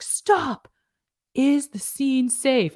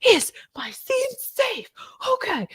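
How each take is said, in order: First: High, drawn-out mock call-out; hammed-up safety check. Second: Very high, breathy, drawn-out melodrama; overdramatic. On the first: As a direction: call a slow, showy halt like a trainee. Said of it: "they look around, they're like". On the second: Retold or imitated. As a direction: squeak it out slowly in hammed-up alarm. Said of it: "I was always very dramatic".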